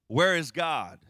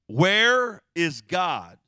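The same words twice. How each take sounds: First: It is asked in a calm, normal voice. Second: It is asked sternly in a loud voice.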